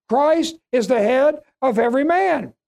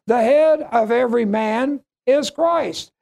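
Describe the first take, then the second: First: Said in the usual way. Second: Slow, measured, leaning on "head"; emphasis on HEAD. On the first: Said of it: "this loses the emphasis of Paul's teaching". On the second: Shown as a demonstration. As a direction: lay out "The head" first with weight, then let "Christ" fall. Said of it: "the emphasis of Paul's teaching".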